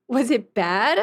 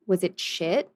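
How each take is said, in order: First: Slower, laughing rephrase. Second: Said in the usual way. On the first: Real, not acted. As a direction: correct yourself with a laugh.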